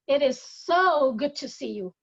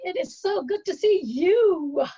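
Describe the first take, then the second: First: The word "so" carries the stress. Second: The word "you" carries the stress.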